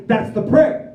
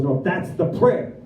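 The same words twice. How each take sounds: First: High, loud disbelieving question; incredulous. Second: Slow, matter-of-fact correction; sponsor's firm answer. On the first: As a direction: blurt it out, rising in mock disbelief. Retelling his disbelief at the prayer. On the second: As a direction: imitate a mentor slowly insisting. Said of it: "He goes". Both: Retold or imitated.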